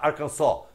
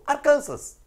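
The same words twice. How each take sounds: First: It is pronounced the American local way. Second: It is pronounced the usual Brazilian way. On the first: The speaker calls it wrong. "Não temos que falar Arkansas" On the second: The speaker calls it right. "a vida inteira o povo brasileiro falou Arkansas"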